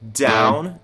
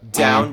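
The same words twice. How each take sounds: First: The words are spoken slowly and drawn out. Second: The words are spoken at a normal pace.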